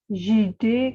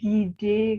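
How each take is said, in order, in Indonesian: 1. Kata ini dimulai dengan bunyi j lembut. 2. Kata ini dimulai dengan bunyi g keras. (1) "tidak menjadi jide" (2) "tapi gide"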